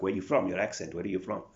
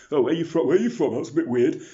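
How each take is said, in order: First: Loud mock questioning of an accent; imitating curious people. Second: Very loud, high-pitched mock questioner; imitating nosy people. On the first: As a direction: pester loudly, imitating nosy strangers. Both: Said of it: "And people are like".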